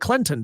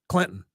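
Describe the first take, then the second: First: The middle T is clearly pronounced. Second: The middle T is dropped entirely. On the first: The speaker calls it wrong. "nobody enunciates that that that T in Clinton. Nobody says" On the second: The speaker calls it right. "C L I N apostrophe N"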